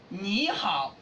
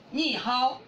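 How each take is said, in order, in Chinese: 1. 这是用标准普通话的声调说的。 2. 这是用变了的河南方言声调说的。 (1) "你好读成你好" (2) "读成你好"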